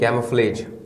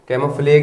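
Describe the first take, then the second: First: The word ends with a soft zh sound. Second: The word ends with a hard g sound. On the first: The speaker calls it right. "कैमोफ्लेज पढ़ेंगे" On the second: The speaker calls it wrong. "कैमोफ्लेग नहीं"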